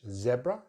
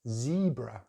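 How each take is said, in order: First: The first vowel is short, in a British accent. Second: The first vowel is a long E, American-style. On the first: "So British English, zebra, short vowel sound" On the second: "American English, they use that long vowel sound, E"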